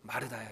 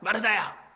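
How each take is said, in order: First: The name is said with a pained, sighing tone. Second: The name is called out sharply and harshly. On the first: The caller is lamenting over her. "탄식, 막 아, 안타까운 모습으로 탄식하셨을까요? ... 이렇게 마르다야라고 부르셨을까요?" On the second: The caller is rebuking her. "꾸짖는 모습이셨을까요? ... 이랬을까요?"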